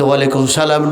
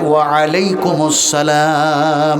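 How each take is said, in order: First: The greeting is shortened, its sounds run together. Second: Every part of the greeting is said fully. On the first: The speaker calls it wrong. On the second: The speaker calls it right.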